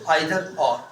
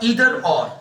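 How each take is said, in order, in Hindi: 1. Either की शुरुआत 'eye' स्वर ध्वनि से होती है। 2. Either की शुरुआत 'ee' स्वर ध्वनि से होती है।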